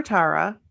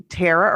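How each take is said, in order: First: Tara with an "ah" first vowel, TAR-uh; alternative pronunciation. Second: Tara with an "air" first vowel, TAIR-uh; first pronunciation. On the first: Offering the other way to say a listener's name, Tara as TAR-uh. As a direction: say Tara with an open "ah". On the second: Unsure of a listener's name, Tara said as TAIR-uh. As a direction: say Tara to rhyme with Sarah. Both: Shown as a demonstration. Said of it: "I don't know how you pronounce it".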